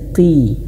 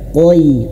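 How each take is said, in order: First: The syllable is said plainly without extra thickening. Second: The syllable is heavily thickened, sounding like qoi. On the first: The speaker calls it right. "Biasa saja" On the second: The speaker calls it wrong. "Jangan sampai qoi, qoi. Nah, ini berlebihan"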